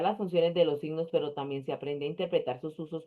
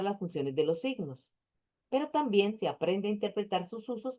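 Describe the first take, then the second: First: It runs on without stopping to take breath. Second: It pauses for breath at the comma. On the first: The speaker calls it wrong. "yo al final ya me estaba quedando sin aire" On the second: The speaker calls it right. "con aire y sin aire"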